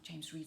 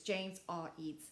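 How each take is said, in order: First: The R is joined into one surname. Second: The R is said as a separate letter. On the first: The speaker calls it wrong. "It's not James Reed" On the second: The speaker calls it right. "It's James R. Eads"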